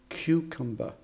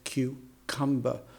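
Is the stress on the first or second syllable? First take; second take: first; second. First: The stress is on the first syllable. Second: The stress is on the second syllable. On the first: The speaker calls it right. "a native speaker would say" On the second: The speaker calls it wrong. "she puts the emphasis on the second syllable in cucumber"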